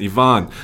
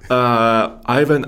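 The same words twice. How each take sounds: First: The name is said with a Russian pronunciation. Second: The name is said with an English pronunciation.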